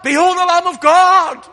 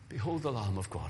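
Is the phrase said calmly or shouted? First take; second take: shouted; calmly. First: The phrase is shouted loudly with strong energy. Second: The phrase is said quietly with little energy. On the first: The speaker calls it right. "was shouting to the crowd" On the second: The speaker calls it wrong. "It's not like that"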